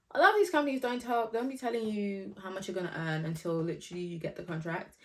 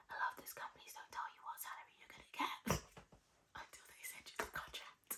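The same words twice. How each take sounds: First: Said in the usual way. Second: Very soft, secretive whisper. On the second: Real, not acted. Telling viewers that companies hide the salary, whispering. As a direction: leak it in a hush, with a small laugh slipping in. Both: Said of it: "I don't know why I'm whispering".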